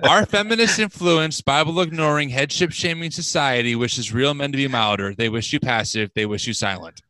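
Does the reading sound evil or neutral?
neutral. It is read in a plain, neutral voice.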